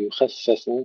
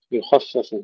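First: يخفف as yukheffef, kha as light as fa; thin kha, wrong. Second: يخفف with a dark kha and light fa; heavy kha, thin fa. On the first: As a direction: flatten the خ of يخفف to a light sound. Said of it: "ولا نقول". (يخفف بترقيق الخاء خطأً) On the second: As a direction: darken the خ of يخفف, then thin the ف. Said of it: "تفخيم الخاء وترقيق الفاء". (يخفف بتفخيم الخاء وترقيق الفاء) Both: Shown as a demonstration.

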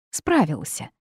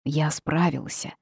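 First: Mocking echo of «Справился»; sarcastic. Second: Said in the usual way. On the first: A narrator's reading. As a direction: repeat «Справился» with a scornful laugh. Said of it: "саркастически рассмеялся Джейс". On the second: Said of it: "Aris defends himself".

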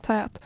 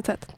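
First: "Tät" with a drawn-out vowel; corrected pronunciation. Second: "tät" said as the misheard form; rejected pronunciation. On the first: Friend with blocked nose correcting, "Tät" drawn out. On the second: Friend correcting a misheard word, "tät" as the rejected form. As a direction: say "tät" as the version being corrected. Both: Shown as a demonstration. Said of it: "Nej, inte tät".

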